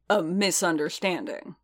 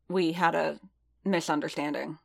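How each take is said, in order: First: Understated growl of disbelief; growled echo. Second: Said in the usual way. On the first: A narrator's reading. Boba challenges Din's excuse for the fight, growling. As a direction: throw "misunderstanding" back as a challenge. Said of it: "Boba growled".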